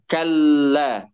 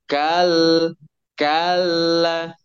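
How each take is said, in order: First: The consonant is held and joined without a break. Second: The consonant is split with a bouncing break. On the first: The speaker calls it right. "Langsung nempel" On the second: The speaker calls it wrong. "jangan begini. ... Itu namanya diayun atau istilah tajwidnya isba. Nggak boleh"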